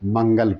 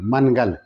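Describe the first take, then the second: First: The n is only a nasal sound. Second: The n is said as a full consonant. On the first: The word is written with the nasal mark. "जब इसके ऊपर ये दे दिया जाएगा तब इसको लोग मंगल पढ़ेगा" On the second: The word is written without the nasal mark. "अगर इस तरह से रहेगा तो इसको लोग मनगल पढ़ेगा"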